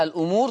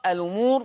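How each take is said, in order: First: "الأمور" as al-'umuur; original hamza. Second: "الأمور" as a-lumuur; hamza transfer. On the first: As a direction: break "الأمور" after the l. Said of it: "الأمور تقرأ". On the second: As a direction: glide l into u in "الأمور". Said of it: "بشيل الهمزة وانقل الحركة". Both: Shown as a demonstration.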